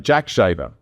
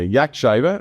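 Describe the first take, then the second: First: The name starts with a 'j' sound. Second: The name starts with a 'y' sound. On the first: This is how other people say the name. "other people say Jack Shaver, okay, with an accent" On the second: This is how the team says the name. "we say"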